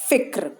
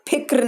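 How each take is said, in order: First: The first consonant is an f sound. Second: The first consonant is an aspirated ph sound. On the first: The speaker calls it right. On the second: The speaker calls it wrong.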